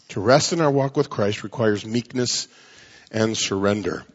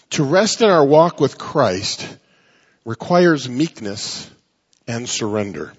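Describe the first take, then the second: First: Said in the usual way. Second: Slow emphatic. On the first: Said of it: "repeated at normal pace". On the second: Shown as a demonstration. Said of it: "slow emphatic first take".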